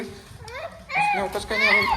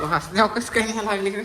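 First: Mock echo. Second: Said in the usual way. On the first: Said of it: "mock repeat". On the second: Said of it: "repeated in mock voice".

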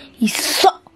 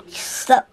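First: Said in the usual way. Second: Whispered. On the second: Real, not acted. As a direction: whisper "He suck" with no voice. Kid whispering insults about dad.

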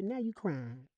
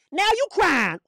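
First: Hushed teasing aside; soft mocking. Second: High, loud jeer; exclaimed pulpit mockery; mocking taunt. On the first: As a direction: drop it down to a quiet jibe. Mocks those left behind, soft take. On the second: Mocks those left behind, loud take.

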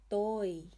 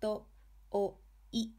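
First: Toi joined up, o held long as "tooi"; long vowel. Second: To-o-i one beat at a time; syllable-by-syllable "To-o-i"; sounded out. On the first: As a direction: blend it into one word, stretching the o of Toi. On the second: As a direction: separate each kana of To-o-i with a pause. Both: Shown as a demonstration. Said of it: "a word using hiragana o".

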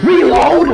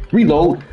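First: Panicked yell of reload; frantic shout. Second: Said in the usual way. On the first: Real, not acted. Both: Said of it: "repeats reload, building".

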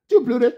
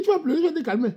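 First: High, punched "Tu" at the start of "Tu vas pleurer"; high taunt stressing "Tu"; mocking taunt. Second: High sing-song "tu vas pleurer" with stress on "vas"; high teasing "vas"; mocking taunt. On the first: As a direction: jab it at her. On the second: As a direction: taunt her lightly. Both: Mocking a crying girl.

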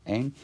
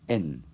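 First: "ein" with a long, drawn-out diphthong; lengthened vowel. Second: "en" with a short, simple vowel. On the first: Teacher shows students the metrical stretching, long vowel in "ein". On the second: Teacher gives students the basic Greek word, short vowel in "en". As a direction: say "en" with the unlengthened vowel. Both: Shown as a demonstration. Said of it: "omdat het een lange klinker nodig is".

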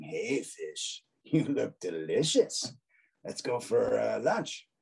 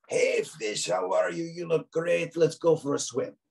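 First: Slower, sneaky shark voice with a hungry edge; sly shark. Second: High, cheery shark greeting; friendly shark voice. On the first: Shark with angled eyebrows tempts fish, sly hungry voice. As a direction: tease it like a shark eyeing lunch. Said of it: "He looks a little more mischievous". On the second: Shark with raised eyebrows greets fish, high cheerful voice. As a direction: chirp it like a happy shark inviting a friend. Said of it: "but that's his voice". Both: Acted.

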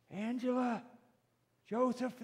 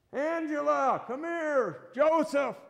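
First: High calling voice without shouting; lifted, unforced parental call; calling names. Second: High, loud parental yell; acted shout for the kids. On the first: Acted. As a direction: call the children as heard from a distance. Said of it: "they hear their name by their mom or dad". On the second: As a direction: call lost children from far away. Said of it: "The mom and dad are yelling".

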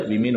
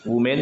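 First: वीमेन with 'vi' first; correct plural pronunciation. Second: वुमेन with 'wu' first; wrong plural pronunciation. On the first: Teacher corrects the plural, वीमेन as VI-min. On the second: Teacher shows the mistaken plural, वुमेन as WU-men. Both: Shown as a demonstration. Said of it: "वुमेन नहीं होता है".

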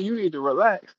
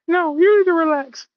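First: Said in the usual way. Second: Very high, loud gremlin retort; hammed-up indignant little gremlin; Gizmo. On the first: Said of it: "And I'm like". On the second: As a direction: snap back in a squeaky creature voice. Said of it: "Little motherfucking gremlin said".

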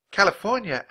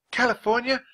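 First: "California" high, then falling; falling answer. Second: "California" very high, rising at the end; rising echo question. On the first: Girl answering the teacher, "California" with a falling tune. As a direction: state "California" as a firm answer. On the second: Teacher echoing the girl, "California" rising in wonder. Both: A narrator's reading.

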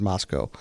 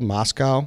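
First: Moscow ending in "coe"; Moscow, second syllable rhyming with "go"; local pronunciation. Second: Moscow with "cow" at the end; Moscow, second syllable rhyming with "now"; spelled-out pronunciation. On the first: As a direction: say Moscow with a long o at the end. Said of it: "it's pronounced Moscow". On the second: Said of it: "It's spelled Moscow". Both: Shown as a demonstration.

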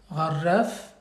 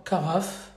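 First: Gharraf with a throaty gh and a rolled r, unlike French carafe; Arabic pronunciation. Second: Said in the usual way. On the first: Shown as a demonstration. Teacher sets Gharraf against French carafe, Arabic sounds. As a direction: give Gharraf its Arabic gh and trilled r. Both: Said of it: "Donc carafe".

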